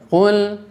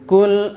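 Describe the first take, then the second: First: The first consonant is thick and heavy. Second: The first consonant is thin and light. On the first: The speaker calls it right. "perhatikan huruf qafnya tebalkan" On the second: The speaker calls it wrong. "Misalnya kul a'udzu, nah itu tidak boleh"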